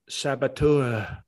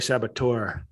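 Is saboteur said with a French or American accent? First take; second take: French; American. First: It is said with a French pronunciation. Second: It is said with an American hard R. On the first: "if I can say it like the French with the weak" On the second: "with the hard R"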